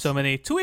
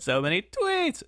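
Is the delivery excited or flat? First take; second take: flat; excited. First: It is said flatly, without excitement. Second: It is said with lively, exclamatory energy. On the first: The speaker calls it wrong. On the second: The speaker calls it right.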